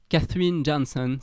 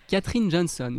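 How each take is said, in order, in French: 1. Le nom est prononcé avec un accent américain. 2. Le nom est prononcé avec un accent français.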